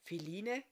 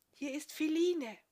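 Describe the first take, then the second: First: Astonished. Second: Higher woman's voice calling softly at a wagon at night. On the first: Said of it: "keuchte erstaunt auf". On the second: Woman outside the wagon calls softly to Goldulak, high hushed voice. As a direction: call his name gently from outside, high and hushed. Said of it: "leise rief". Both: A narrator's reading.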